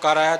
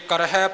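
First: The word ends with an 'ai' vowel. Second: The word ends with an 'h' and 'i'. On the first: The speaker calls it wrong. "ਹਾਹੇ ਅੱਖਰ ਦਾ ਉਚਾਰਨ ਬੜਾ ਹੀ ਘੱਟ ਕਰਦੇ" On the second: The speaker calls it right. "ਜੇ ਕਰਹਿ ਪਾਠ ਹੈ"

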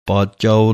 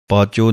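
First: The word ends with a longer 'chaao' sound. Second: The word ends with a short 'cho' sound. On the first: The speaker calls it right. "ਊੜੇ ਔਂਕੜ ਦੀ ਆਵਾਜ਼ ਜ਼ਰੂਰ ਦੇਣੀ ਹੈ" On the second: The speaker calls it wrong. "ਪਾਚੋ ਨਹੀਂ ਕਹਿਣਾ ਹੈ"

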